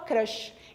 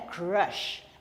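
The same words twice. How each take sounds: First: It is said with a Brazilian Portuguese pronunciation. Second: It is said with an English pronunciation. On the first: "Mas a gente fala crush" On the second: "Fica bonitinho, né?"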